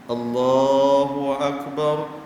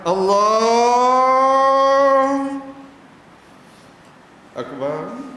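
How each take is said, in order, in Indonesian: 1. Kedua kata itu menyatu tanpa jeda. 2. Kedua kata itu dipisahkan dengan jeda. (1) "bersambung antara Allah dengan akbar" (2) "jangan Allah akbar, jangan pisah"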